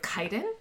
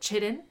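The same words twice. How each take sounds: First: The word is not pronounced as it is spelled. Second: The word is pronounced as it is spelled.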